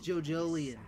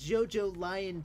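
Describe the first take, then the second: First: The name is said like 'Jojolian'. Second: The name is said like 'Jojo Lion'. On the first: The speaker calls it right. "it's Jojolian" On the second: The speaker calls it wrong. "It's not Jojo Lion"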